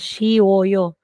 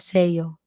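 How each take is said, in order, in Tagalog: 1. May tatlong magkakahiwalay na pantig ang dulo. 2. Ang dulo ay pinaikli at naging dalawang pantig. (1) "Hindi pwedeng ganyan" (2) "magiging ganito po siya"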